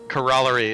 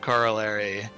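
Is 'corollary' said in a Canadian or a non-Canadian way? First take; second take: Canadian; non-Canadian. First: It is pronounced the Canadian way. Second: It is pronounced the non-Canadian way. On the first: "the way Fraser says like corollary" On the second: "instead of corollary"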